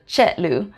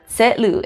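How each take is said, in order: First: The word begins with a ch sound. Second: The word begins with a ts sound. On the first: "instead of chetlu" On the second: "Or you might hear setlu"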